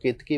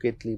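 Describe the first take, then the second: First: केतकी said with a clear k sound in the middle, ke-ta-ki; केतकी with a k, not an l; saying Ketaki. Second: केतली said with an l sound in the middle, ket-li; केतली with an l, not a k; saying Ketli. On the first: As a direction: pronounce it केतकी, the name some people use. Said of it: "कुछ लोग केतकी बोलते हैं". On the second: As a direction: pronounce it केतली, the other common form. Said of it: "कुछ लोग केतली बोलते हैं". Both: Shown as a demonstration.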